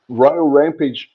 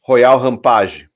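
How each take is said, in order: First: The name is said with English-style pronunciation. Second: The name is said with Portuguese-style pronunciation.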